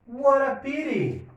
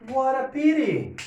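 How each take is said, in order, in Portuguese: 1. Os sons do t são batidas suaves, parecidas com o r. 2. Os sons do t são batidas suaves, parecidas com o r.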